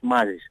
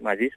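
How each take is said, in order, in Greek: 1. Ο τόνος είναι στην πρώτη συλλαβή. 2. Ο τόνος είναι στην τελευταία συλλαβή. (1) "Γιατί όλοι είναι μαζί και Μάζης" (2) "όχι Μάζης"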